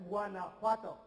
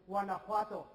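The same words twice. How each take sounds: First: Guanajuato nog eens luid voorgezegd, wah-nah-HWAH-toh. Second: Guanajuato langzaam en duidelijk voorgezegd, wah-nah-HWAH-toh, zodat ze het kunnen nazeggen. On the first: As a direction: Guanajuato helder voordoen met de klemtoon op HWA. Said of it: "One more time". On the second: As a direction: Guanajuato luid voorzeggen met de klemtoon op HWA. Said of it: "I'll say it once and you say it after me". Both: Shown as a demonstration.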